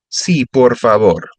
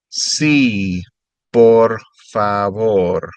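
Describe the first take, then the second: First: Said in the usual way. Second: "Sí, por favor" drawn out slowly; slow careful repeat. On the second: Shown as a demonstration. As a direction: stretch it out for the learner.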